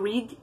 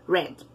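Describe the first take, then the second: First: Pronounced as the base form of the verb. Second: Pronounced as the past participle of the verb. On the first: "De read" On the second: "aqui no past participle, eu digo read"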